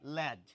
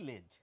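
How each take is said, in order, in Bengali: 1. স্বরধ্বনিটি বিবৃত, 'cat'-এর a-এর মতো। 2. স্বরধ্বনিটি অর্ধ-সংবৃত, 'bed'-এর e-এর মতো। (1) "এই শব্দটিকে আমরা অনেকে বলে থাকি ল্যাজ" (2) "অনেকে বলে থাকি লেজ"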